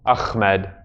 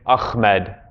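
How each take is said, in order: No difference in how they are said.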